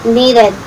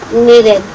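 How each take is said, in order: The two takes are said the same way.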